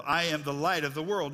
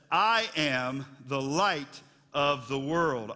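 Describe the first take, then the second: First: Said in the usual way. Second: Very slow, every word weighted; slow emphatic proclamation. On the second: Shown as a demonstration. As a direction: proclaim it slowly.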